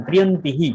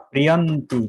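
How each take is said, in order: First: প্রিয়ন্তি হি with an echoed "hi" ending; visarga as "hi". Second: প্রিয়ন্তি ending cleanly on "ti"; no visarga. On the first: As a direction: sound the visarga after i in প্রিয়ন্তি হি as "hi". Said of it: "এটা হি উচ্চারণ হবে". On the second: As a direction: end প্রিয়ন্তি on the i, with no h. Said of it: "তখন প্রিয়ন্তি বলতে হবে". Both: Shown as a demonstration.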